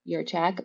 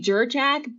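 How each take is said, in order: First: The name begins with a Y sound. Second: The name begins with a J sound. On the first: The speaker calls it right. "the J is actually pronounced as if it were a Y" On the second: The speaker calls it wrong. "most people say Jurchak"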